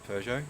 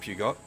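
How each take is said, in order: First: The name is said the standard way. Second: The name is said the Australian way. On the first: This is how the name is meant to be said. "people didn't know how to pronounce it" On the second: This is how people who didn't know used to say it. "So they used to call it Peugeot. That's so Australian"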